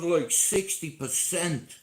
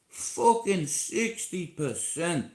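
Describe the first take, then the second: First: Said in the usual way. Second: "Fucking sixty percent" drawn out slowly with weight on "Fucking"; slow emphatic repeat. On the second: Real, not acted. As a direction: repeat it slowly so the figure sinks in.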